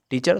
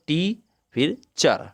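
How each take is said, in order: First: Said in the usual way. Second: टी held alone, then चर after a pause; teacher's slow two-beat demo of टी, चर; syllable by syllable. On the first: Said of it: "दो बार बोल सकते हैं". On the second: Shown as a demonstration. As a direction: slowly break teacher into टी and चर. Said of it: "बोलने के लिए कैसे बोलते हैं".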